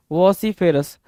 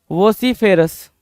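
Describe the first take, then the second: No difference in how they are said.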